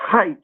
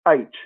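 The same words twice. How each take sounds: First: It starts with an audible h sound. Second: It starts with a vowel, no h sound. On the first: The speaker calls it wrong. "It's not H" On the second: The speaker calls it right. "the correct pronunciation of H is H. It's spelled A I T C H"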